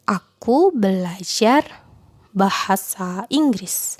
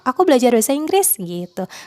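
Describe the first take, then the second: First: The words are separated by pauses. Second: The words flow together without pauses. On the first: The speaker calls it wrong. "Itu nggak natural gitu ya" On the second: The speaker calls it right. "Nggak ada jeda gitu ya, mengalir gitu cara ngomongnya"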